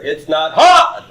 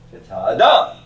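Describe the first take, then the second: First: HA punched loud and high; wrong stress on HA. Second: ADAM with its last syllable raised high; light HA, then punch the DAM of adam; stress on the end of ADAM. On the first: Teacher showing students where the accent is not, HA wrongly stressed loud. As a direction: hit HA hard, as if it carried the accent. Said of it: "the accent is not here". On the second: Teacher correcting the accent for students, final syllable of adam stressed. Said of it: "you know the accent is not here". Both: Shown as a demonstration.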